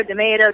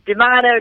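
First: D'Amato said duh-MAY-doh, with "ay" in the middle; "ay" pronunciation. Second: D'Amato said duh-MAH-doh, with "ah" in the middle; "ah" pronunciation. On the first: Guest offering the host another version of the surname, D'Amato with an "ay". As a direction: stress the MAY in D'Amato, rhyming with American tomato. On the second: Guest offering the host a version of the surname, D'Amato with an "ah". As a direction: stress the MAH in D'Amato, rhyming with British tomato. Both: Shown as a demonstration. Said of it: "like tomato, tomato".

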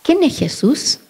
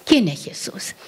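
First: Put-on higher, puzzled child's question; child asking, higher. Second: Soft, unvoiced whispered question; hushed whisper of the question; whispered echo. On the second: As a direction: whisper it back in wonder.

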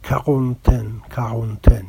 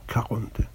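First: کاغونتن said the French way, throaty r and nasal end; کاغونتن in a French accent; French pronunciation. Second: کاغونتن repeated quietly, checking the French sound; tentative French کاغونتن, unsure of it; softly re-say کاغونتن the French way; French pronunciation, softer. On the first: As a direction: try the French کاغونتن with a guttural r. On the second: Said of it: "امیدوارم درست تلفظ کنم". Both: Shown as a demonstration.

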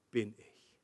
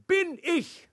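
First: Low, soft "bin ich" after a pause; understated punchline. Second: "Bin ich" pitched high, both words punched; emphatic key words. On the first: Acted. Preacher quotes Jesus's claim to the congregation, understated. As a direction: let "bin ich" drop quietly. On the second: Shown as a demonstration. Preacher reveals the word he finally understood, emphatic. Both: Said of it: "dass das wichtige Wort ist".

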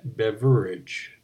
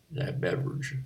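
First: "beverage" said slowly, syllable by syllable; careful, every syllable. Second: "beverage" slurred with a syllable swallowed; slurred, syllable dropped. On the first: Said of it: "Now I added one to it". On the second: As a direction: mumble "beverage" so a middle syllable drops out. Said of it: "did I leave a syllable out of that word?". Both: Shown as a demonstration.

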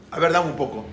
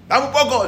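First: Said in the usual way. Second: High-pitched insistent cry; shouted demand. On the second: Acted. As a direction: demand it, voice jumping up. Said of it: "empezó a gritar". (exigiendo a gritos, voz aguda)

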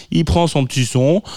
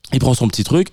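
First: Words catching in a rough throat; frog in throat. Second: Said in the usual way. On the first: Real, not acted. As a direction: speak through a frog in the throat. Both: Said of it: "j'ai un truc dans la gorge".

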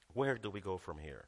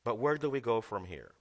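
First: "Where do we go from here?" dropped low and soft; quiet low repeat. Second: Said in the usual way. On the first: Shown as a demonstration. Preacher musing to congregation, low and softened. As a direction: let it hang, hushed and thoughtful.

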